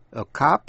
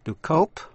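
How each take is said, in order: First: Cop with an "ah" vowel; open O. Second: Cope with an "oh" vowel; long O. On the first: Teacher recaps contrasting vowels, cop with the open vowel. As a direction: say cop like "kahp". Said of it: "hay là A trong chữ cop". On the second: Teacher recaps contrasting vowels, cope with a long O. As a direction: say cope like "kohp". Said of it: "Âm O đọc là O trong to cope". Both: Shown as a demonstration.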